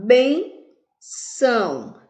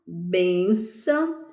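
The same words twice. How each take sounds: First: "benção" very slow, long rising BEN, falling ÇÃO; stress on BEN. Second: Said in the usual way. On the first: Shown as a demonstration. Teacher showing which syllable rises, "benção" with a drawn-out stressed BEN. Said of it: "Vejamos que o bem subiu". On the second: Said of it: "a sílaba mais forte é bem".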